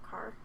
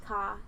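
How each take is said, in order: First: "car" with a full R sound; American "car". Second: "ka" said with no R, open ah; non-rhotic Australian "ka". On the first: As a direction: rhotic "car", R pronounced. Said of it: "so I say ka, not car". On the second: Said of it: "the letter R is usually pronounced ah". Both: Shown as a demonstration.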